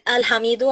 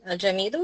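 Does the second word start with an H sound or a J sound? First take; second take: H sound; J sound. First: The second word starts with an H sound. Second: The second word starts with a J sound. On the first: The speaker calls it wrong. "he he he said Al Hamido. I don't know why" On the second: The speaker calls it right. "it type a J and it's also pronounced as a J"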